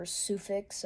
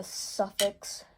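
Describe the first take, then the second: First: Sufix with a long "soo" first syllable; alternative pronunciation. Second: Suffix with a short "suh" first syllable; unsure pronunciation. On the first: Angler offering another way to say the brand, Sufix said SOO-fix. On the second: Angler unsure of the braid's brand name, Suffix said SUFF-iks. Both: Shown as a demonstration. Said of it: "I don't know how to say it".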